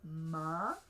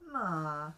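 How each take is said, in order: First: The pitch rises on the syllable. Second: The pitch stays low on the syllable. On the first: "you can have a rising tone" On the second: "You can have a low tone"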